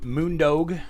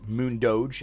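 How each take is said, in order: First: The name ends with a plain 'dog' sound. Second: The name ends with a 'doge' sound. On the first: The speaker calls it wrong. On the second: The speaker calls it right.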